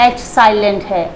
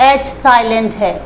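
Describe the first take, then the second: Both takes have the same delivery.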